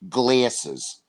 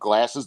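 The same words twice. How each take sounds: First: The word is said in a Baltimore accent. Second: The word is said in a standard accent. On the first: "the worst one is Baltimore, Maryland ... they go glasses" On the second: "they don't say glasses"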